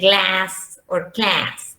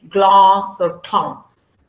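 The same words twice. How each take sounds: First: It is said with an American accent. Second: It is said with a British accent. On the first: "If it is American English, you use the A" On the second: "If it is British English"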